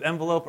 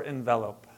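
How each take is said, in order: First: "envelope" starting with EN as in pen; EN-velope pronunciation. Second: "envelope" starting with ON; alternative ON-velope pronunciation. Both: Shown as a demonstration. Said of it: "How do you pronounce that?".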